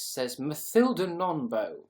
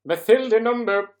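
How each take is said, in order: First: Said in the usual way. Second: Much higher, much louder sing-song call of Mathilda Nombo; exaggerated name call. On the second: Shown as a demonstration. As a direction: belt Mathilda Nombo out like a fanfare. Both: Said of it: "am I saying your name right".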